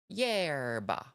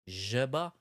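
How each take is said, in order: First: The word begins with a y sound. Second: The word begins with a zh sound. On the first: "it is most closely pronounced like yerba" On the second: "the S H or the zh"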